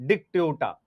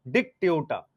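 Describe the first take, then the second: Both takes have the same delivery.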